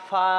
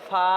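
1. নামটি 'a' স্বরধ্বনিতে শেষ হয়। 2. নামটি 'a' স্বরধ্বনিতে শেষ হয়।

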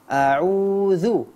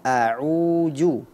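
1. Konsonan tengah itu bunyi dz yang lembut. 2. Konsonan tengah itu bunyi j. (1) "Yang benar adalah a'udzu" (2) "jangan a'uju"

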